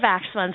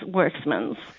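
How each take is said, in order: First: The name starts with an Afrikaans-style W sound. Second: The name starts with a soft English W sound. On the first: The speaker calls it wrong. "we do hear a lot of Werksmans around" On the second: The speaker calls it right. "it actually is the soft W"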